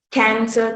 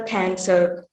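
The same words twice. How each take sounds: First: Said in the usual way. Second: "cancer" with the r sounded at the end; pronounced final r. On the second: Shown as a demonstration. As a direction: finish "cancer" on a curled r. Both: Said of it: "articulation of the r sound".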